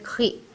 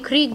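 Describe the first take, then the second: First: It sounds like khee, with no final g. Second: It sounds like kreeg, with a clear g. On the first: "Danish में" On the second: "Norwegian में"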